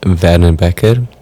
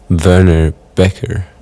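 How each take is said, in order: First: The name is said with Afrikaans pronunciation. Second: The name is said with English pronunciation. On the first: This is how the name is said at home. "That's a very Afrikaans way of pronouncing it" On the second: This is easier for people from abroad. "an easier way of uh, of hearing the name and saying it"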